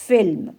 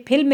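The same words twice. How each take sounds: First: "फिल्म" with a true f, as film; nukta F sound. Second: "फिल्म" with an aspirated p, as philm; PH sound, no nukta. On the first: Teacher answering how it reads with nukta, "फिल्म" with an f. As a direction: say "फिल्म" starting on f, not a puffed p. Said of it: "तो क्या पढ़ा जाएगा?". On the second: Teacher reading the word as written for pupils, "फिल्म" with a ph. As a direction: say "फिल्म" starting on a puffed p, not f. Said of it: "जब इसमें नुक्ता लग जाएगा". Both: Shown as a demonstration.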